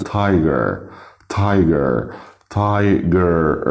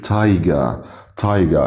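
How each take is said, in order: First: Tiger with a sounded final "er"; American R ending. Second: تايجا ending in an open "ah"; British R-less ending. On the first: Teacher modelling American tiger, r fully sounded. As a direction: end tiger on a held r. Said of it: "هننطق الكلمات بالامريكان". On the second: Teacher modelling British تايجا, no r at all. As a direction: drop the final r, تايجا as "tai-ga". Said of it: "لكن بالبريتش". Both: Shown as a demonstration.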